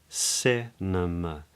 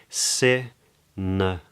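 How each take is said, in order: No difference in how they are said.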